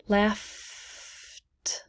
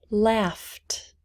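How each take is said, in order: First: "laughed" with a long held F, then a separate T; softly drawn-out "laughed", showing F then T; no E sound. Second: Said in the usual way. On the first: Shown as a demonstration. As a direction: stretch the F in "laughed" slowly into a final T. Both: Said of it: "No E sound".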